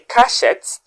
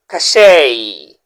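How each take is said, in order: First: The word ends with a pronounced t sound. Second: The word ends in a vowel, no t sound. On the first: The speaker calls it wrong. "that's absolutely wrong" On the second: The speaker calls it right. "how should you pronounce the word"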